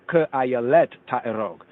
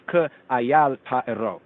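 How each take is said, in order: First: "Ke ayalet ta'erog" with the full ending -et on ayalet; amended reading. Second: "Ke ayal ta'erog" read slowly with the short form ayal; manuscript reading. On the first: Teacher offering the amended Hebrew to students, careful and clear. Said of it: "amended more better". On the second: Teacher reading the manuscript's Hebrew wording, slow and careful. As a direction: slowly recite "Ke ayal ta'erog", saying ayal with no ending. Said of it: "the Hebrew here in the manuscript says". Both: Shown as a demonstration.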